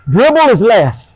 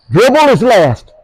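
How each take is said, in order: First: Said in the usual way. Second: "Dribble is last" repeated slower with weight on Dribble; slow emphatic repeat. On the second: Shown as a demonstration. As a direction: hammer the point home.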